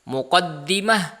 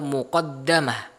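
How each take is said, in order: First: The vowel after the d is i. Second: The vowel after the d is a. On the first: "dengan mengkasrahkan dalnya" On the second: "dengan memfathahkan dalnya"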